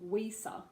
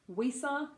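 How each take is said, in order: First: The name starts with a W-like sound. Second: The same.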